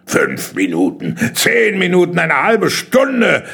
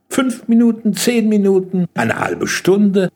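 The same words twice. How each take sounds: First: Incredulous echo, building up; disbelieving repetition. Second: Put-on high-pitched boy's voice, listing; boy suggesting estimates. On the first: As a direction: echo the guesses, shaking your head. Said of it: "wiederholte Kalle Wirsch kopfschüttelnd". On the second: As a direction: offer guesses one after another. Max offers estimates impatiently. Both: A narrator's reading.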